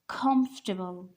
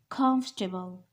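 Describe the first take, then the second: First: The stress falls on the first syllable. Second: The stress falls on the first syllable.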